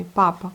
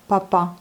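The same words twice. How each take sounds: First: Papa with the first pa stressed; Russian-style papa, weight on the first syllable. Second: Papa stressed on the last syllable; French stress. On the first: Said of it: "accentué sur la première syllabe". (accent sur la première syllabe) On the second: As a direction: say papa evenly, landing on the final pa. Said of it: "comme en français". (accent français sur la dernière syllabe) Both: Shown as a demonstration.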